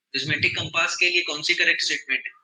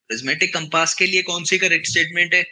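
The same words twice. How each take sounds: First: Said in the usual way. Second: The question called out louder; louder, insistent repeat of the question. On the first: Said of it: "teacher repeats question". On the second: Shown as a demonstration. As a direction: push it out to the class. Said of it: "teacher repeats question louder".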